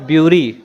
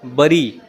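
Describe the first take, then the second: First: The first vowel sounds like 'yoo'. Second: The first vowel sounds like 'eh'. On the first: The speaker calls it wrong. "It's not ब्यूरी" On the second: The speaker calls it right. "बरी, right?"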